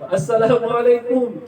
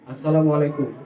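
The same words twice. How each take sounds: First: The long vowels are held to full length. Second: The long vowels are cut short and slurred. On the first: The speaker calls it right. "kalau diucapkan dengan baik" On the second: The speaker calls it wrong. "Tidak ada matnya di situ, tidak ada panjang pendeknya"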